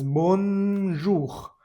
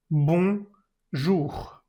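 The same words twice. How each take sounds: First: Bonjour with the N spoken out, bonnjour; bonjour, N clearly spoken; wrong bonjour with the N; wrong pronunciation. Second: Bonjour with a nasal bon, no N; bonjour, N left silent; correct nasal bonjour. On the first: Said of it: "y no es bonjour". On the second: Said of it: "no pronuncias esa N". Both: Shown as a demonstration.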